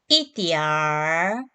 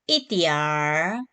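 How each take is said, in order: No difference in how they are said.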